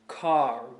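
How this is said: The R at the end is clearly pronounced. The speaker calls it right. "We have a strong R sound"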